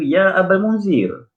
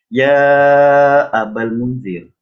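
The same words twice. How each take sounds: First: The vowel of 'ya' is kept short. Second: The vowel of 'ya' is stretched out long. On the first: This is how it is said in everyday speech. "Nabi baca biasa je, dua harakat je" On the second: This follows the recitation rule for the Quran. "kena panjang empat atau lima harakat"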